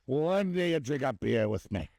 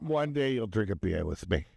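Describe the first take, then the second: First: Higher, slower mock Scottish dad; hammed-up Scottish-Irish dad, pitched up and slow; Scottish accent. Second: Dad imitation with a light Scottish lilt; mock Scottish-Irish dad accent. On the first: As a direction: draw out the put-on Scottish accent. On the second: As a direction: put on a loose Scottish accent at normal pitch. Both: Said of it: "You did a Scottish accent for".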